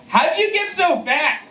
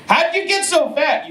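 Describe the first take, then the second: First: High, slow, sassy mock question; squeaky mean-girl jab. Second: High sassy mock question; squeaky mean-girl jab. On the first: Sassy girls mocking fat guy. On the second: Sassy question quoted again.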